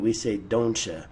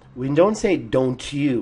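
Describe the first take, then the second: First: The t and you blend into a ch sound. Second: The t and you are said separately. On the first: The speaker calls it right. "We say ... The C H sound comes in with a T U" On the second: The speaker calls it wrong. "We don't say"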